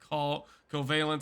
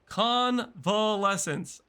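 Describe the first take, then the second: First: The word is said without the middle syllable. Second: The word is said with all its syllables. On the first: The speaker calls it wrong. "did not see an N, did not see the L E in the middle there" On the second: The speaker calls it right. "I'm going to say it right this time"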